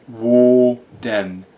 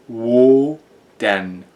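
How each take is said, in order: Both takes have the same delivery.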